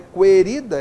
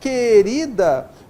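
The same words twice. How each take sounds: First: The u after the q is pronounced separately. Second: The q and u make a single sound. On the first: The speaker calls it wrong. "Não é querida" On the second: The speaker calls it right. "é querida. Vai gerar apenas um som aqui, ó, o Q"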